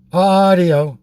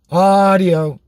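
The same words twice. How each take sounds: The two takes are said the same way.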